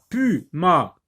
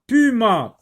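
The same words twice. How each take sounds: First: "puma" split into pu, pause, ma; teacher sounding out "puma" as pu-ma; syllable by syllable. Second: Said in the usual way. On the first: Shown as a demonstration. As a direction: break "puma" into two separate beats. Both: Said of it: "p, p".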